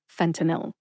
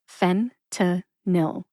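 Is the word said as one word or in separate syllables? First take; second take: one word; separate syllables. First: The syllables run together as one word. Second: The word is broken into three separate syllables. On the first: "Put all three syllables together and you get fentanyl" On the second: "So that's fen-ta-nil"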